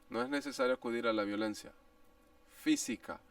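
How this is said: The word 'física' carries strong contrastive stress.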